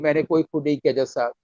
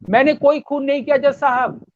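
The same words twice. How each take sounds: First: It is said quietly, as if close by. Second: It is shouted loudly.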